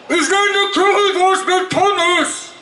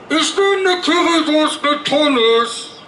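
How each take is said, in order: First: It is said even more loudly. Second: It is said loudly.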